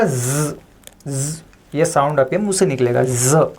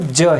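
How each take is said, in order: First: "ज" as a buzzing z; "ज" with nukta, z as in zoo. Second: "ज" as a hard j sound; "ज" without the dot, no buzz; plain Hindi ja. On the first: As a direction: hold the z buzz on "ज". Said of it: "इसके नीचे एक बिंदी लगा दी". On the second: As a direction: say "ज" like the j in jam. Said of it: "इसका pronunciation होता है ज हिंदी में". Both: Shown as a demonstration.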